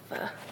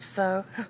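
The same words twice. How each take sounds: First: It sounds like a rude English word. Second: It does not sound like a rude word. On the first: This is the proper name of the dish. The speaker calls it right. "it sounds like I want to say a dirty word" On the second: This version feels more comfortable to say. The speaker calls it wrong. "it's more comfortable"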